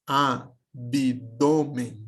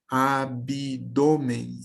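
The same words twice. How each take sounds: First: Said in the usual way. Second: "abdômen" drawn out slowly, an extra i sounded after the b: a-bi-dô-men; spoken pronunciation. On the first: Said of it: "na fala eu pronuncie". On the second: Shown as a demonstration. Teacher showing the class how "abdômen" is really spoken, slow and sounded out. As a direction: say "abdômen" very slowly with an added i between b and d. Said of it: "como se tivesse um I aqui".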